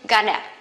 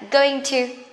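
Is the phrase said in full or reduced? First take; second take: reduced; full. First: The words blend into one quick reduced form. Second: Both words are said fully and slowly. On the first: "Much quicker" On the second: "it's quite slowly"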